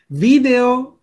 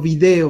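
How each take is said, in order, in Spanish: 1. El acento está en la primera sílaba. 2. El acento está en la segunda sílaba. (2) "sin acento"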